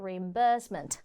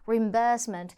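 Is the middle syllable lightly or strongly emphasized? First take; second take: strongly; lightly. First: The middle syllable gets strong emphasis. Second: The middle syllable gets only light emphasis. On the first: "영국 호주에서는 reimbursement, 이 burst 부분에 강조를 해주죠" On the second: "예쁘게 발음할 수도 있겠지만"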